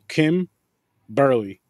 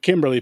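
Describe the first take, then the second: First: The name has a pause in the middle. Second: The name is said smoothly without a pause. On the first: The speaker calls it right. "You got to pause in the middle. It's like a dash" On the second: The speaker calls it wrong. "Not Kimberly, people"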